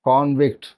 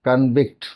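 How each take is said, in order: First: The stress is on the first syllable. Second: The stress is on the second syllable. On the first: It is the noun, meaning a sentenced criminal. "நவுனா வரும்பொழுது கான்விக்ட் அப்படிங்கிற உச்சரிப்பில் வரும்" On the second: It is the verb, meaning to find guilty. "வெர்பா வரும்பொழுது இது கன்விக்ட் அப்படிங்கிற உச்சரிப்பில் வரும்"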